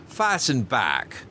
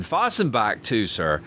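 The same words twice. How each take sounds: First: "Fastened back" spoken very slowly and heavily; ominous slow repeat. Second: "fastened" lingered on, slowed; fastened stressed. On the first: Steward ominously repeats his warning to the passenger, very slow. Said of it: "That's the horrible thing". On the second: Steward warns the passenger the port reopens, "fastened" slightly slowed. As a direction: draw out "fastened" a little. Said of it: "continued Robert triumphantly". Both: A narrator's reading.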